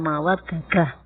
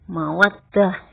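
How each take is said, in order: First: The d sounds are split by a vowel between them. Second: The two d sounds are merged into one doubled d. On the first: The speaker calls it wrong. "bukan mawaddadah" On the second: The speaker calls it right. "mawaddah bukan mawaddadah"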